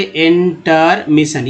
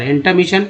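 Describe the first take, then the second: First: intermission slowly split as in-ter-mission; syllable by syllable. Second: Said in the usual way. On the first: Shown as a demonstration. Teacher showing learners the word parts, intermission broken up slowly. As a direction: draw out each part of intermission separately. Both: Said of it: "ठीक है, अगर टर".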